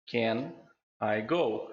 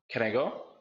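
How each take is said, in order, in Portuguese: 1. Cada palavra é dita separadamente, sem ligação. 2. Can emenda direto com I, ligadas entre si.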